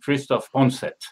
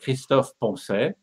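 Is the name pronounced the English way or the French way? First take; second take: English; French. First: The name is pronounced with English sounds. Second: The name is pronounced with French sounds. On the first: "usually in English it gives" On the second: "The French way of pronouncing it"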